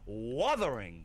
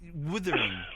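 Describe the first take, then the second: First: The first vowel sounds like 'uh'. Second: The first vowel sounds like 'ih'. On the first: The speaker calls it right. "it's pronounced wuther. It's an ah" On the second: The speaker calls it wrong. "Then she's saying withering"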